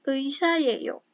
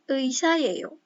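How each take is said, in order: The two takes are said the same way.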